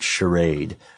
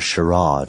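First: The word has a plain, everyday pronunciation. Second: The word has a fancy, posh-sounding pronunciation.

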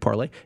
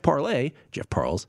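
First: The surname ends with a 'lay' sound. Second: The surname ends with a 'less' sound. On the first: The speaker calls it wrong. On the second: The speaker calls it right.

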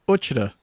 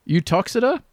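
First: The place name is said the local way. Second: The place name is said the standard way. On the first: "or locally" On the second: "I got two pronunciations here"

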